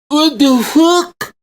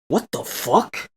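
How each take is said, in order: First: It is said in an exaggerated put-on voice. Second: It is said in his natural, startled voice.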